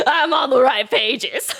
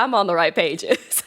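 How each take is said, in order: First: High, slow, laughing through the words. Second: Said in the usual way. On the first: Real, not acted. Streamer repeating a joke to chat, laughing hard. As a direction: giggle it out.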